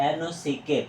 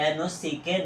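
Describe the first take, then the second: The two takes are said the same way.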